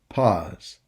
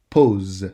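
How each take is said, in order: First: The vowel is an English 'aw' sound. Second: The vowel is a rounded French 'o' sound. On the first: The speaker calls it wrong. "you pronounce it pause" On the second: The speaker calls it right. "A plus U equals O. You should say pose"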